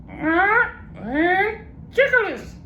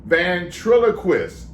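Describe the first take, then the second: First: Very high slow parrot garbling a long word. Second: Ventriloquist said slowly, every syllable clear; careful slow ventriloquist. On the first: Acted. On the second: Shown as a demonstration. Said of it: "break it up in syllables".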